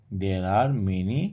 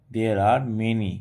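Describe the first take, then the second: No difference in how they are said.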